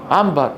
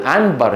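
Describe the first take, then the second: First: عنبر said naturally with m in place of n; natural mim. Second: عنبر with a clear n before the b; spelled-out nun. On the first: Teacher shows untrained everyday speech, عنبر with mim. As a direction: let the ن of عنبر become a plain m. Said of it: "بالفطرة، بدون تجويد". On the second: Teacher shows the written form, عنبر with clear nun. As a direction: sound the ن in عنبر as written, not as m. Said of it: "هي نون عين نون باء راء". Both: Shown as a demonstration.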